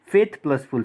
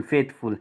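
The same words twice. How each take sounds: First: Faith, plus, full said as three separate parts; split into parts. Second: Faithful said as one smooth word; joined whole word. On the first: (faith plus full को तीन हिस्सों में तोड़कर बोलें) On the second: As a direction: join the parts into faithful. (faithful को एक पूरे शब्द की तरह जोड़कर बोलें) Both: Shown as a demonstration.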